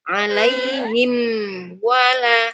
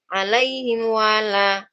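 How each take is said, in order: First: The m is clear before the w. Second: The m is blurred before the w. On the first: The speaker calls it right. "Harus begitu bunyinya" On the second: The speaker calls it wrong. "Jangan dibaca ... itu namanya samar"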